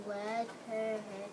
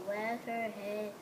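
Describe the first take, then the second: No difference in how they are said.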